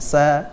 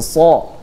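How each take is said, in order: First: The sound is thin and light. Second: The sound is thick and heavy. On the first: The speaker calls it wrong. "bukan sa" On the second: The speaker calls it right. "memiliki sifat tafkhim, tebal. Jadi so"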